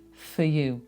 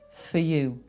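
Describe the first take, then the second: First: The word 'for' has a reduced schwa vowel. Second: The same.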